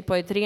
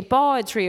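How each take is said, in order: First: "poetry" with a questioning rise; rising intonation. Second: "poetry" said a touch louder, tune falling at the end; "poetry" as a settled statement; falling intonation. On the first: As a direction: lift the end of "poetry" like a question. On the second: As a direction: say "poetry" with a firm falling close. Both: Shown as a demonstration. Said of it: "that's the intonation or the articulation".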